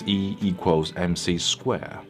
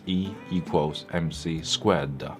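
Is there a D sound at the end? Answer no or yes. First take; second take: no; yes. First: The last word ends without a D sound. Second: The last word ends with a D sound. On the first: The speaker calls it wrong. "I never heard the D sound at the end" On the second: The speaker calls it right. "is pronounced as"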